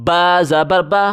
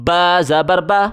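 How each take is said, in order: Both takes have the same delivery.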